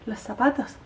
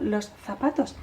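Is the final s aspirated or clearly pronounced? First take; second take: aspirated; pronounced. First: The final s is aspirated and barely heard. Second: The final s is clearly pronounced. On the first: "y la S final no la tienen" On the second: "están diciendo los zapatos"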